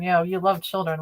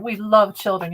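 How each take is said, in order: First: Dry sarcasm on "love", falling tune; knowing, sarcastic retort; sarcastic reply. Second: Mock quote. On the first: Real, not acted. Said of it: "but not in the right way". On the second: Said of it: "make them look like heroes".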